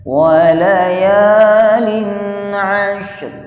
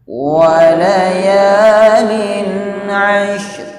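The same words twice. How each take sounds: Both takes have the same delivery.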